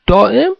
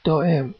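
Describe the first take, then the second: First: High, rising question on دائم; دائم lifted high as a query. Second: Soft, high, hushed answer; small murmured reply; whispered. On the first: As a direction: ask دائم pitched well up, in surprise. Man questions the boy. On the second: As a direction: confide دائم quietly, as a secret. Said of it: "نجوا کنان گفت". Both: A narrator's reading.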